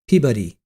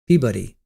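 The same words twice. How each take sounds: No difference in how they are said.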